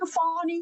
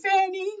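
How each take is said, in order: First: The first vowel sounds like in 'fawn'. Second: The first vowel sounds like in 'fan'. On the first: The speaker calls it right. "Excuse me" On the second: The speaker calls it wrong. "I like Fanny better"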